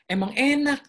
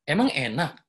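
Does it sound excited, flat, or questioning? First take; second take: excited; questioning. First: It is said with lively, excited enthusiasm. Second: It is said as a questioning, rising tone. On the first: The speaker is enthusiastic about it. "itu ada excited dia... Ada antusias" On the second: The speaker asks back instead of answering. "ini mempertanyakan"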